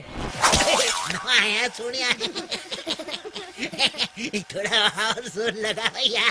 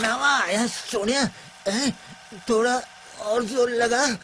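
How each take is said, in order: First: It is said while laughing. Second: It is said in a crying voice.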